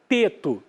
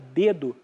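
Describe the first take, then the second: First: The consonants are voiceless, like t. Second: The consonants are voiced, like d. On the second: "em vez de falar dedo"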